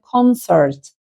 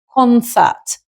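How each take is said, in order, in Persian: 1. این کلمه با لهجه آمریکایی گفته شده است. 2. این کلمه با لهجه بریتیش گفته شده است. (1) "با لهجه امریکن" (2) "با لهجه بریتیش"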